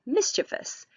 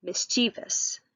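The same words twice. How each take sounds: First: Mischievous said as MIS-chi-vus, three syllables with a ch sound; corrected pronunciation. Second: Mischievous said as mis-tee-vus, with a t and ee in the middle; first try at the word. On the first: Teacher correcting herself, mischievous said MIS-chi-vus. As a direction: say mischievous as MIS-chuh-vus, the careful fix. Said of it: "I'm sorry, mischievous". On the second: Teacher's first go at Mischievous, said mis-tee-vus. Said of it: "or actually mischievous, I'm sorry". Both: Shown as a demonstration.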